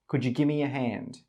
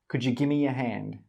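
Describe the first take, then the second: The two takes are said the same way.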